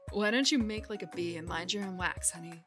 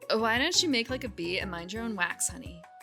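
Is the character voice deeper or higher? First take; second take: deeper; higher. First: The put-on voice is pitched deeper. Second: The put-on voice is pitched higher.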